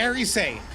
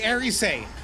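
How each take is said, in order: First: The name is said with three syllables. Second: The name is said with three syllables.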